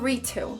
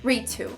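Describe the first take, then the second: The two takes are said the same way.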